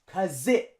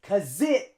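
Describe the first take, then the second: The two takes are said the same way.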